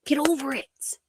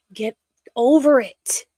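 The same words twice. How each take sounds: First: Breathy whispered repeat, no voice. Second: Louder, pushed out, fed up; exasperated. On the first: Muttering to herself about the critics, whispered. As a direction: hiss it under the breath, tired of them. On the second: Ranting at online critics, loud and fed up. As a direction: throw it at the critics with force. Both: Real, not acted.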